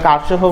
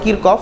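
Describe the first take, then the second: First: It sounds like Karshof, with an open first vowel. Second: It sounds like Kirkof, with a k sound. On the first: Many people say it this way, without basis. "কারশফও বলে অনেকে ... এটার ভিত্তি নেই" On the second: This is how Germans say the name. "German ভাষায় ... ওরা বলে কিরকফ"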